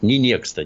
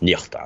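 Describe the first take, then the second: First: The middle consonant is a ks cluster. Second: The middle consonant is an h sound. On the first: The speaker calls it wrong. "Не некста, нет" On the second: The speaker calls it right. "она правильно произносится"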